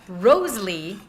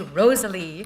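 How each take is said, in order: First: The name is said in its careful, full form. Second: The name is said in a quick, slurred form. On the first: The speaker calls it right. "instead of Rosalie" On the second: The speaker calls it wrong. "when I speak quickly, I say Rosalie"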